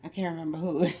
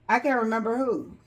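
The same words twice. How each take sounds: First: Said in the usual way. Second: Laughing. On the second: Real, not acted. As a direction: say it through a laugh. Repeats line, second time laughing.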